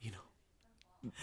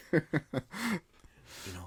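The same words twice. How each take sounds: First: Breathy whispered aside. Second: Higher with a laugh. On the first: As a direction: drop to a whisper. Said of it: "whispered repeat". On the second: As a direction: chuckle it out. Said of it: "said with laugh". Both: Real, not acted.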